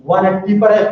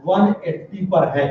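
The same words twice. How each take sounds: First: "पर है" said louder, as a clinching repeat; firm confirm. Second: "one eighty" said slowly and deliberately; slow stress. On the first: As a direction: land "one eighty पर है" firmly. (ज़ोर से पक्का करते हुए) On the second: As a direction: spell out "one eighty पर है" word by word. (धीरे और ज़ोर देकर) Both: Shown as a demonstration. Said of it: "देखो ध्यान से".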